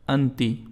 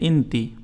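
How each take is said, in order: First: The word begins with an 'a' vowel. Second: The word begins with an 'i' vowel. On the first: This is the formal standard Arabic form. "ये फुसहा अरबी में, ट्रेडिशनल अरबी में।" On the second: This is the local spoken Arabic form. "Female के लिए आप कहेंगे इंती"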